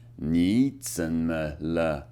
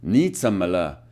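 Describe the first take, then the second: First: 你怎么了 said slowly and low, tone by tone; slow Mandarin drill. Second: 你怎么了 echoed after the teacher, lower; repeating Mandarin. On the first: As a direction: stretch out 你怎么了 to practise it. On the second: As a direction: copy 你怎么了 with its tones. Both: Shown as a demonstration. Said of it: "The next one is".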